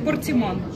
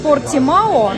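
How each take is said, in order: First: The ending is read as a nasal 'an'. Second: The ending is read as a plain 'ao'. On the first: This is how the word is actually read. "читается как э, Портиман" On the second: This is how the word is spelled. "пишется он Портимао"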